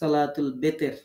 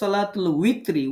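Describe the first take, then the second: First: The second word begins with a b sound. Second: The second word begins with a w sound. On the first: The speaker calls it wrong. "আমরা লিখি সলাতুল বেতের" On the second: The speaker calls it right. "সঠিক হচ্ছে সলাতুল উইতরি"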